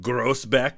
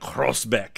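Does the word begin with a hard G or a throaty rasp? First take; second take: hard G; throaty rasp. First: It begins with a hard English G sound. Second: It begins with a throaty, raspy G sound. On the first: It is read the way it is spelled. "is what it says on the map" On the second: It is said the way locals say it. "but it's like Grosbeck"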